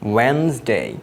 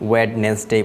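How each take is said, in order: First: The first d is silent, giving two syllables. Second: The first d is sounded, giving three syllables. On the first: The speaker calls it right. "কিন্তু এটির উচ্চারণ হলো ওয়েনসডে" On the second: The speaker calls it wrong. "আমরা এটিকে অনেকে ওয়েডনেসডে বলি"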